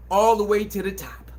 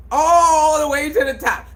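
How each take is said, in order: First: Said in the usual way. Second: Louder, emphatic repeat. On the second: Shown as a demonstration. Repeating his point to the audience, louder and higher. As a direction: say it louder and higher the second time.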